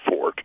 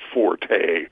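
First: The name is said with one syllable. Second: The name is said with two syllables. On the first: This is how educated English speakers would say it. The speaker calls it right. "We English majors from Harvard would use Fort" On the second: This is how the racing world says it. The speaker calls it wrong. "The whole racing world pronounces him Forte"

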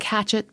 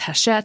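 First: The name sounds like the plain English word hatchet. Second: The name has a fancier, foreign-sounding pronunciation. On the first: The speaker calls it wrong. "it's spelled like it looks like hatchet" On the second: The speaker calls it right. "but it's Hachette because it's fancy"

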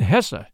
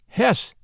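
First: The name is said with a German pronunciation. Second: The name is said with an English pronunciation. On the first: "Hesse in German" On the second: "pronounced Hesse in English"

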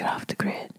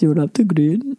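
First: It is whispered in a Nigerian accent. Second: It is said without a Nigerian accent.

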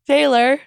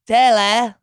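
First: It is said in the speaker's natural accent. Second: It is said in a mock Australian accent. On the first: "how do you say it?" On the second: "Not how do you pretend to mock an Australian saying it"

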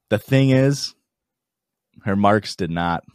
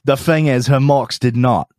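First: It is said in a natural speaking voice. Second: It is said in an exaggerated put-on voice.

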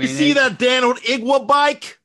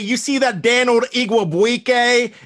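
First: The name is pronounced sloppily and way off. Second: The name is pronounced carefully and accurately. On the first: The speaker calls it right. "There you go. That's it" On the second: The speaker calls it wrong. "that pronunciation was probably a little bit too good"

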